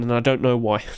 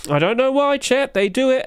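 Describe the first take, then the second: First: Said in the usual way. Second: High-pitched bewildered wail; mock despair. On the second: Streamer to chat about people overpaying, high mock despair. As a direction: plead it high, hammed-up bafflement.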